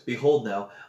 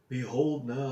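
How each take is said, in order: First: It is said in the reader's normal voice. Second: It is said in a put-on old man's voice.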